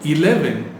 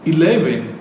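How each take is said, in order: First: The word begins with a vowel sound. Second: The word begins with a vowel sound.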